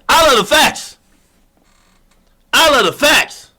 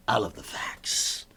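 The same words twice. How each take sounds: First: Proud louder declaration. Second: Soft unvoiced aside. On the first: Acted. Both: Contrasting soft and loud repeats.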